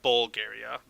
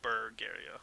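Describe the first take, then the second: First: "Bulgaria" with a clear BOL at the start; "Bulgaria" with an L in the first syllable; contrasted pronunciation. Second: "Bulgaria" with BUR in place of BUL; "Bulgaria" with an R in the first syllable; intended pronunciation. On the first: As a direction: say "Bulgaria" as bol-GAIR-ee-uh, like the country. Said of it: "Not Bulgaria, Bulgaria". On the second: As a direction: say "Bulgaria" softly as bur-GAIR-ee-uh. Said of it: "I think that's how it's pronounced". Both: Shown as a demonstration.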